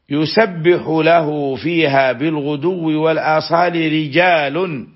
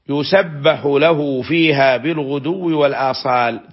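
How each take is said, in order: First: The phrase runs straight into rijal without pausing. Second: There is a full stop before rijal. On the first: The men are the subject of the glorifying. "فيحسن الوصل" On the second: A new sentence begins with the men. "ثم يقف ثم يبتدئ كلاما جديدا"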